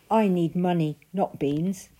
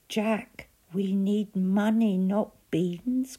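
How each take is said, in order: First: Put-on louder, insistent boy; Jack protesting. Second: Louder, higher exasperated cry; mother crying out. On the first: Jack refusing the strange man's offer, loud and insistent. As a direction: push back hard on the deal. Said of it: "said Jack". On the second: Mother crying out at Jack over the beans. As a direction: cry it out in despair. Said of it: "cried his mother". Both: A narrator's reading.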